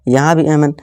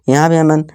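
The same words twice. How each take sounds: No difference in how they are said.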